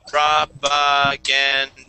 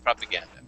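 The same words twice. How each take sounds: First: The word is said slowly, syllable by syllable. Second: The word is said quickly as one smooth unit. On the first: "four syllables" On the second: "and then you say it faster"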